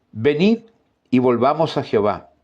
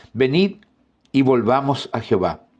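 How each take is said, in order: No difference in how they are said.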